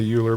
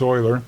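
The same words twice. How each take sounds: First: The name does not begin with 'oy'. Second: The name begins with 'oy', like 'oiler'. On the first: The speaker calls it wrong. "Some people might say Euler" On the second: The speaker calls it right. "but it's Euler"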